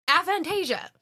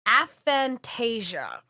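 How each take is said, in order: First: "Aphantasia" said again higher and punchier, falling; emphatic repeat. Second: "aphantasia" spelled out slowly, each syllable, falling at the end; careful pronunciation. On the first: Announcing the term to the guys with a higher, emphatic repeat. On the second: Reading the new term to the guys, slow and careful. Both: Shown as a demonstration.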